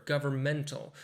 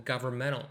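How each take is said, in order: First: "governmental" with a clear T after the N; careful "governmental", ending in a crisp "tal"; every sound pronounced. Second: "governmental" with the T dropped after the N; silent T. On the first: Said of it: "you have to say each sound in the word". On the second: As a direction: glide over the T in "governmental", ending like "menal". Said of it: "it sounds like it's not right". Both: Shown as a demonstration.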